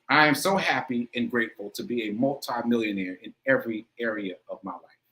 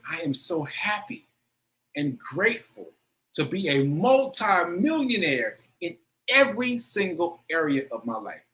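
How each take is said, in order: First: It is read plainly, just for the words. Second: It is said with strong feeling, like an incantation.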